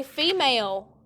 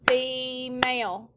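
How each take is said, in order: First: Said in the usual way. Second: "female" slowly, with a long held first syllable. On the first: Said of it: "everyone say female". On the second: Shown as a demonstration. Teacher clapping with students, "female" stretched out by syllable. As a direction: break "female" into two slow beats. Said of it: "Clap it".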